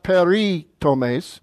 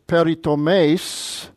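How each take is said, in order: First: The stress falls before the last syllable. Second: The stress falls on the last syllable. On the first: The speaker calls it wrong. "It's not peritomes" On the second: The speaker calls it right. "the accent's on the last syllable. it's peritomes"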